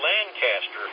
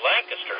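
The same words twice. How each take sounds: First: It is said in an outsider's pronunciation. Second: It is said in the local pronunciation. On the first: The speaker is from somewhere else. The speaker calls it wrong. "don't say Lancaster" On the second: The speaker belongs to the area. The speaker calls it right. "say Lancaster. That way they know you're not a foreigner"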